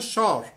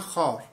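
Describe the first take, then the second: First: The word begins with a 'sh' sound. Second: The word begins with a 'kh' sound. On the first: "پشتونای نواحی قندهار شین تلفظ میکنن" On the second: "اونا باز میگن خار"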